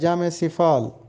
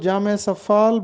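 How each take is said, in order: First: The second word starts with 'si'. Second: The second word starts with 'sa'. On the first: The speaker calls it right. "दुरुस्त तलफ़ुज़ है जामे सिफाल" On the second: The speaker calls it wrong. "बहुत से लोग इसको जामे सफ़ाल बोलते हैं"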